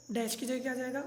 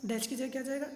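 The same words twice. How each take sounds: The two takes are said the same way.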